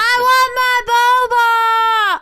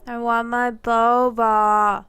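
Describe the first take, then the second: First: It is screamed loudly. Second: It is said at a normal volume.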